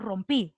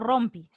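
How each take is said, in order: First: The stress is on the last syllable. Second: The stress is on the first syllable. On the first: The speaker calls it right. "sino rompí" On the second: The speaker calls it wrong. "no rompi"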